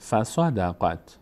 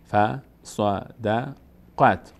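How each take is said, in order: First: «فصدقت» slowly joined as fa-sa-da-qat; joined slow reading. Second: «فصدقت» very slowly split as fa, sa, da, qat; syllable-by-syllable reading. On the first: Teacher reassembling the word for learners, slowly joined. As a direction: link the syllables of فصدقت into one word. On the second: Teacher breaking the word down, syllable by syllable. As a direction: separate each syllable of فصدقت with gaps. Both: Shown as a demonstration. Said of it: "قاف میچسبه به".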